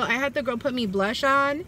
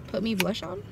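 First: Said in the usual way. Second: Softer questioning repeat, rising; puzzled echo. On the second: Real, not acted. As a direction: question her own odd phrasing. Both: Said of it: "Yeah, put blush on, I mean".

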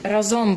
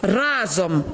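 First: "Разом" stressed on the last syllable, ra-ZOM; misplaced stress. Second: "разом" stressed on the first syllable, RA-zom; corrected stress. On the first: Real, not acted. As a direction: lean on "зом" in "Разом". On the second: Shown as a demonstration. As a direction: hit "ра" in "разом". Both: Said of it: "Тільки наголос у слові".

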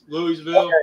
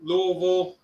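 First: Louisville said fully as "LOO-ee-vil"; spelled-out pronunciation. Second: Louisville squashed to "LOH-vul"; local pronunciation. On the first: Friend compares ways to say it, Louisville in full as "LOO-ee-vil". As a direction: give Louisville every syllable, "LOO-ee-vil". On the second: Friend tries out the local name, Louisville slurred as "LOH-vul". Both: Shown as a demonstration. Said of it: "Louisville or Louisville?".

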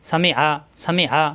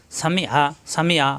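Both takes have the same delivery.

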